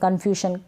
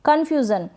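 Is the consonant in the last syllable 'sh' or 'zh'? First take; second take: sh; zh. First: The last syllable is said with an 'sh' sound. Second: The last syllable is said with a 'zh' sound. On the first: The speaker calls it wrong. "कंफ्यूशन ऐसे नहीं पढ़ सकते" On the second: The speaker calls it right. "कंफ्यूजन क्या पढ़ेंगे?"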